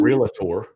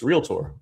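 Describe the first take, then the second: First: "realtor" said as three syllables, REAL-uh-tor; mispronounced realtor. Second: "realtor" in two syllables, REAL-tor; correct realtor. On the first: Host shows listeners how not to say it, "realtor" in three syllables. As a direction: put an extra "uh" in the middle of "realtor". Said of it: "It's not realtor". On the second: Host shows listeners the proper way, "realtor" in two syllables. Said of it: "thank you for saying realtor properly". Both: Shown as a demonstration.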